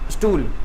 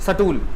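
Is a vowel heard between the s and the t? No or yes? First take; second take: no; yes. First: The s joins the t with no vowel. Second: A short vowel separates the s from the t. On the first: The speaker calls it right. "स्टूल आधा स आ रहा है" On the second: The speaker calls it wrong. "सटूल पढ़ो तो अपने आप ही आपको चलेगा पता कि गलत है"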